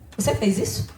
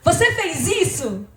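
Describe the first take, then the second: First: The voice sounds indifferent and flat. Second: The voice sounds happy and cheerful. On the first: "Se eu falar indiferente" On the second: "se eu falar alegre"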